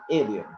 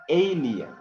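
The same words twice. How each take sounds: First: ALIEN opening on a short E, EH-lee-un; corrected pronunciation. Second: ALIEN opening on a long AY, AY-lee-un; wrong pronunciation. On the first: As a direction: start "alien" like the E in "bed". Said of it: "but you have to say alien". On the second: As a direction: stretch the first vowel of "alien" into AY. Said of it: "It is not alien". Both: Shown as a demonstration.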